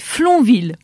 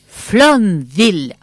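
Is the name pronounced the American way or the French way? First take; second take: French; American. First: The name is pronounced with a French accent. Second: The name is pronounced with an American accent. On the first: The speaker calls it right. "c'est absolument français. C'est Flonville" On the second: The speaker calls it wrong. "j'ai fait une erreur. Pas du tout prononcé à l'américaine"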